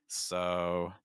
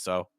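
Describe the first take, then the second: First: The vowel is long and drawn out. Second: The vowel is short and clipped. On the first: The speaker calls it right. "you want to drag out the O" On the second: The speaker calls it wrong. "it's not just so"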